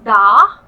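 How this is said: The R is dropped after an open vowel. This is the British way of saying it. "eles vão falar muito mais um da"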